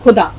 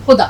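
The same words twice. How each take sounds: First: خدا with a plain kh, as in digging; خدا said with kh, not the throaty sound; wrong pronunciation. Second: خدا with a throaty kh from the throat; خدا said with the guttural kh; correct pronunciation. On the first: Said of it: "یعنی کھودنا". (کھ کے ساتھ غلط تلفظ) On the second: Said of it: "حلق سے خے کی آواز نکالیں گے". (حلق سے خے کے ساتھ صحیح تلفظ) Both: Shown as a demonstration.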